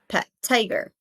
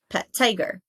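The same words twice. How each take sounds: Both takes have the same delivery.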